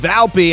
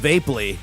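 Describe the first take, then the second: First: The name sounds like Valpy, with an l. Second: The name sounds like Vapely, with a long a. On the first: The speaker calls it right. "It's Valpy" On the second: The speaker calls it wrong. "I used to say Scott Vape, uh, Vapely"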